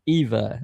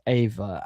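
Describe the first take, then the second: First: The name begins with an 'ee' sound. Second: The name begins with an 'ay' sound. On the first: The speaker calls it right. "Eva rhymes with diva" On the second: The speaker calls it wrong. "not Ava"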